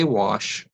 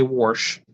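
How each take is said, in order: First: "wash" with no r, as WAHSH; plain wash. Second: "warsh" with an added r before the sh. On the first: Shown as a demonstration. Giving their own typical way, "wash" without any r. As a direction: say "wash" with an open vowel and no r sound. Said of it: "I say wash". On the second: Retold or imitated. Imitating people around them, "warsh" with an added r. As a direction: say wash as "warsh", r clearly sounded. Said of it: "people around me say warsh".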